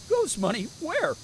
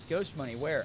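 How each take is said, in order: First: It is said in a Scooby-Doo voice. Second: It is said in his normal voice.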